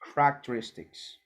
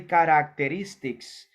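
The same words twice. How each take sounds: First: The vowels are said fast, the first one dropped. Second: Every vowel is pronounced fully and slowly. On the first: The speaker calls it right. "I say characteristics. It sounds like cra characteristics" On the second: The speaker calls it wrong. "I don't say characteristics"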